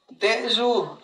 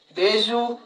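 First: Deyu said with a falling tone; Deyu, the word for mud, voiced with a clear fall; Mixtec tone contrast. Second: Deyu held on a level tone; Deyu, the word for yellow, said level and steady; Mixtec tone contrast. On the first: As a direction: let the pitch drop through Deyu. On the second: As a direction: keep Deyu even, with no fall. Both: Shown as a demonstration. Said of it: "se escriben igualito, pero se pronuncian diferentes".

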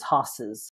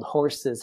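First: "hosses" with the r dropped; Massachusetts pronunciation. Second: Said in the usual way. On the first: Retold or imitated. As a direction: say "hosses" for horses, without the r. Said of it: "same woman who called horses hosses". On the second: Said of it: "who called horses hosses".

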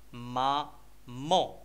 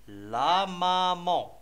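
First: Very slow "مامون", ma, pause, mon; split into syllables. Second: "لا مامون" run together with long, held vowels; joined-up model reading. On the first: Teacher reading a picture word to children, "مامون" slowly in separate syllables. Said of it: "لي سيلاب اللي كيتكونوا منهم". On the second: Teacher modelling for children to repeat, "لا مامون" drawn out and connected. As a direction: stretch "لا مامون" slowly without breaks. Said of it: "قبل ما نقراو لا مامون". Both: Shown as a demonstration.

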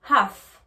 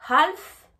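First: HALF said "haaf", no L; silent L. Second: HALF with a sounded L, "hal-f"; L pronounced, as the wrong way. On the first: English teacher contrasting two pronunciations, HALF with silent L. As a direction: leave the L out of HALF, loud. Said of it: "on ne prononce pas le L de half". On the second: English teacher contrasting two pronunciations, HALF with L sounded. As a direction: hit the L in HALF, loud. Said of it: "Entendez bien la différence". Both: Shown as a demonstration.

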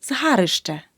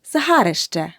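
First: Згарище with a clear и before щ; correct suffix ищ. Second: Згарище with an е sound in place of и before щ; mispronounced suffix. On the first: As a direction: say згарище as "zharyshche". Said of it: "Тут потрібно вжити суфікс «ищ»". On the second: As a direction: say згарище wrongly as "zhareshche". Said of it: "помилка у слові". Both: Shown as a demonstration.

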